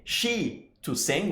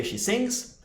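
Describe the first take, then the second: First: Slow, soft "she to sing"; wrong form, slowed. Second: "she sings" lifted higher and soft; correct form, higher. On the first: Teacher contrasting wrong and right forms, slow and soft. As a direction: drag out the broken version. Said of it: "we don't say". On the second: Teacher giving students the correct form, pitched up. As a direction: brighten up on the right form. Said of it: "we say". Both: Shown as a demonstration.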